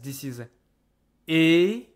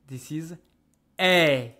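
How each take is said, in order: First: The vowel is said with a more closed mouth. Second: The vowel is said with a more open mouth. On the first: "I take this E sound" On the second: "I open it to turn it into E"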